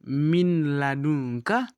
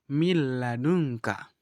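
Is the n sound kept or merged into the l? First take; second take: kept; merged. First: The n is pronounced clearly before the l. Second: The n merges into a doubled l sound. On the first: "Dari awalnya"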